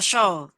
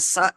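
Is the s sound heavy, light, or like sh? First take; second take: like sh; light. First: The s sound becomes a sh sound. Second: The s sound is light, without heaviness. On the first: "atau terbaca show" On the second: "tidak ada tebalnya"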